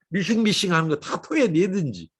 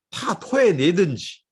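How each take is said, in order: First: Said in the usual way. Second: 토해내든지 drawn out slowly and leaned on; slow stress. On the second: Shown as a demonstration. Preacher drives home emptying out before God, slow and emphatic. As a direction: stretch 토해내든지 slowly, each syllable weighted.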